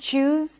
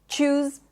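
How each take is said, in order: First: It starts with a CH sound. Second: The same.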